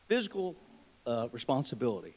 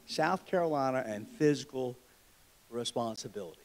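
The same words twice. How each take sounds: First: Weighty "fiscal ... responsibility"; stressed with pauses. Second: Said in the usual way. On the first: Shown as a demonstration. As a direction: pause before "responsibility" and land it.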